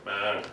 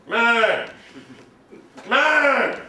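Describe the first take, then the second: First: Said in the usual way. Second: Higher, louder exclaim; excited. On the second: Shown as a demonstration.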